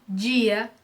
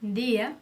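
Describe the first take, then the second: First: "dia" as Brazilian "djia"; a hard j-like d in "dia"; strong D. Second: "dia" with a light Spanish d; soft D. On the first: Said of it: "uma pronúncia mais forte". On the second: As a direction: say "dia" with tongue at the teeth, no j sound. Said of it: "não tem essa pronúncia". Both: Shown as a demonstration.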